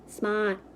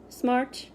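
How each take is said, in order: First: The word is said without the R sound. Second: The word is said with a clear R sound.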